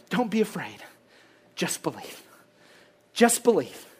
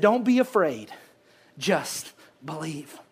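First: Soft, much lower, fading voice; a near whisper of comfort; hushed reassurance. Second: Soft, slow, lower voice of Jesus; almost whisper it, slowly, to comfort; a gentle murmur of comfort; hushed reassurance. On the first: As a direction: let it fall to a murmur. Repeating God's comfort. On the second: Jesus's words to Jairus. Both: Acted.

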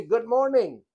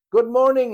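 First: Said in the usual way. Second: Put-on old man booming his good morning back, louder and higher; big cheerful reply from the neighbour; hearty loud greeting. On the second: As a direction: call the greeting back with gusto. He says.

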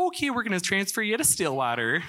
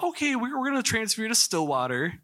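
First: Put-on playful Minnesota nurse accent, pitched up, laughing through it; a hammed-up, affectionate Minnesota accent. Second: Said in the usual way. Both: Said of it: "Or maybe their accents were".

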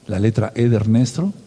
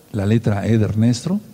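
Both takes have the same delivery.

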